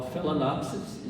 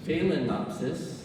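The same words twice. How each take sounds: First: Phalaenopsis said fal-a-NOP-sis; common pronunciation. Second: Phalaenopsis said fay-len-OP-sis; corrected pronunciation. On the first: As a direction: say Phalaenopsis with a short first vowel. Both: Shown as a demonstration. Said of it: "what I've been pronouncing wrong".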